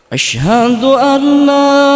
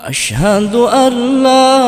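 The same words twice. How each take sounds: No difference in how they are said.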